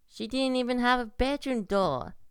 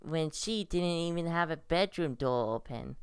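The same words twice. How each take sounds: First: "She didn't even have a bedroom door" said higher, stress on "have"; emphatic repeat. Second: Said in the usual way. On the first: Real, not acted. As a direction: press "have" and lift the whole line higher. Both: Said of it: "no, wait, I shouldn't say he".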